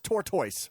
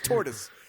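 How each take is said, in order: First: The ending sounds like 'toys'. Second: The ending sounds like 'tus'. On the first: The speaker calls it wrong. "No one says tortoise" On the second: The speaker calls it right. "It's tortoise"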